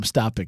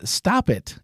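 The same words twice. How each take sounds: First: Said in the usual way. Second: High mock exclamation on "Stop it!"; exclaimed. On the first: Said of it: "I'm glad he was amused". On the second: Reading a listener's comment aloud, as a mock exclamation. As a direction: pop the listener's comment out sharply. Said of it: "Exclamation point".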